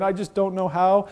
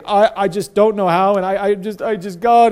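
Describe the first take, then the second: First: Said in the usual way. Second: Whiny, halting mock self-pity, a bit louder; mock wallowing. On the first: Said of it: "that's a different place than saying". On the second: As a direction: stammer it out like someone wallowing in pity. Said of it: "and wallowing".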